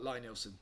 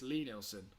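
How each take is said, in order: First: The first name has an 'eye' vowel. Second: The first name has an 'ee' vowel. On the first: The speaker calls it wrong. "I used to say it the wrong way" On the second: The speaker calls it right. "It's Lee Nielsen"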